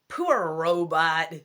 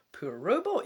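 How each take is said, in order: First: Slow, louder American accent on Poor robot; attempted American accent. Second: Said in the usual way. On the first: Shown as a demonstration. Scottish reader voicing the kid to the robot, attempted American accent. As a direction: give it your best American accent. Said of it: "I'll give him an American accent". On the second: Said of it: "am I meant to be American".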